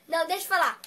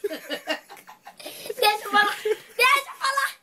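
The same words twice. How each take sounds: First: Said in the usual way. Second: Drawn-out, high mock whine; play-whine to get a word in, stretched and rising high; pleading to speak. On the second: Doll fights to be heard over a rival, mock whining. Interrupted in an acted doll quarrel.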